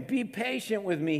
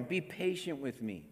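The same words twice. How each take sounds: First: Said in the usual way. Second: Hushed plea; softer begging. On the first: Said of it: "he begged". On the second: A narrator's reading. Servant kneeling before his master, quiet plea. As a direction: whisper the plea on his knees. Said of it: "the servant fell on his knees".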